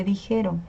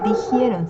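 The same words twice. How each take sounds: First: Said in the usual way. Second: "dijeron" said as dijieron, with a glide before the e; wrong form with extra i. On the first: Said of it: "se dice dijeron". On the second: Shown as a demonstration. Teacher showing students a common mistake, "dijeron" mispronounced as dijieron. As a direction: slip an i into "dijeron": di-JIE-ron. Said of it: "No se dice dijeron".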